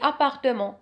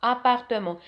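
The two takes are said the same way.

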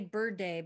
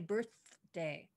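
First: The 'th' sound is dropped from the word. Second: The 'th' sound is clearly pronounced in the word. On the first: The speaker calls it wrong. "She's saying I say bird day" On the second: The speaker calls it right. "but I say birthday"

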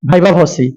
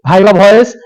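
First: The second word is said as two syllables, 'vo-si'. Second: The second word sounds like English 'voice'. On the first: The speaker calls it right. "আজকে জেনে নাও এটার নাম হচ্ছে viva ভসি" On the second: The speaker calls it wrong. "কেউ উচ্চারণ করতে পারে না, কেউ বলে ভাইবা ভয়েস"

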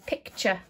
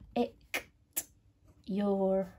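First: The word is said smoothly as one word, 'picture'. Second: The word is sounded out as two clear parts, 'picked your'. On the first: It is the everyday way the word is said. The speaker calls it right. "The way we say it is picture" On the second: It follows the spelling, to help remember the letters. The speaker calls it wrong. "I'll say it in the weird way to help you realise"

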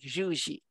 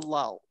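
First: The name is said with a Spanish pronunciation. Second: The name is said with an English pronunciation. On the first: "if we were in Spain, you'd pronounce it something like Juji" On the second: "Anglicized to Llull"

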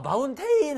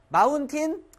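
First: The last syllable is a full 'tane' sound. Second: The last syllable is a short, reduced 'tin'. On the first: The speaker calls it wrong. "마운테인 선생님 아니야" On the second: The speaker calls it right. "마운틴 이건 절반 따라하세요"

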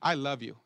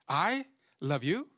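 First: It is said in a plain, sincere tone. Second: It is said in a tone that casts doubt. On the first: The words are meant as they are said. "she understands what I'm saying" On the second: The words are made to seem untrue. "and that's what the devil does"

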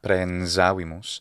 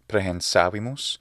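First: The s is pronounced voiced. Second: The s is pronounced voiceless. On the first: This makes the speaker sound foreign. "and not prehensavimus" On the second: This is the expected native pronunciation. "we would expect to hear prehensavimus"

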